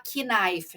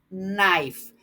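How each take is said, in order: First: The word begins with a clear K sound. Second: The word begins with an N sound, no K. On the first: The speaker calls it wrong. "Tem muita gente aí que fala knife, né, gente? Não tá certo isso" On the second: The speaker calls it right. "o K aqui é silencioso, mudo. Então, eu digo knife"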